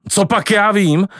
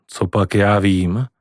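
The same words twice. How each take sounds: First: Angry shout. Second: Nervous. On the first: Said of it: "křičel dědeček rozčileně". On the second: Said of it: "odpověděl dědeček nervózně". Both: A narrator's reading.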